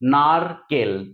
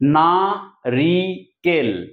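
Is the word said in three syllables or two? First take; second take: two; three. First: It is said as two syllables. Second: It is said as three separate syllables. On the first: "তিনটাকে আমরা দুটো করে নিলাম" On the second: "তিনটে দল"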